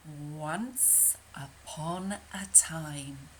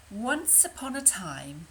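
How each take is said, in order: First: Slow, breathy whispered "Once Upon a Time"; hushed storybook opening. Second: Said in the usual way. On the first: Shown as a demonstration. Storyteller to children, slow hushed whisper. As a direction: whisper it slowly like a bedtime story.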